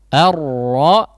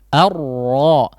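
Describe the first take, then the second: No difference in how they are said.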